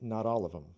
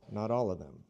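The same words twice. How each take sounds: First: The th sound in 'them' is dropped. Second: The th sound in 'them' is kept.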